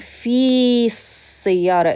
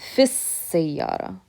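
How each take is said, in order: First: The long vowel is kept before the next word. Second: The vowel is shortened and linked to the next word. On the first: The speaker calls it wrong. "instead of saying fi sayyara" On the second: The speaker calls it right. "This is what it's going to sound like"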